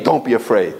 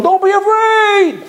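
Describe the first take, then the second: First: Said in the usual way. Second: High, slow, sing-song mock comfort; drawn out like a patronizing pat on the head; hollow reassurance. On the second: Mocking someone telling a frightened person not to fear.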